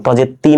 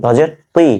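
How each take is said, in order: First: "তি" as a plain tee, unrounded; "তজের তি" ending in a thin t; wrong light t. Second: "তুই" with a rounded t, like twee, rising; higher, emphatic "তুই" at the end; correct heavy t. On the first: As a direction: show the error "তি" with a light t. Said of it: "তজের তি না কিন্তু". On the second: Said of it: "এই জায়গাটা খেয়াল করেন". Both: Shown as a demonstration.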